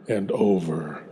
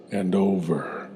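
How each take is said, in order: Both takes have the same delivery.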